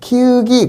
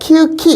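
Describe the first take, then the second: First: The last syllable starts with a plain g. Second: The last syllable starts with an aspirated k. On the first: The speaker calls it right. "그지" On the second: The speaker calls it wrong. "이러지 않잖아요"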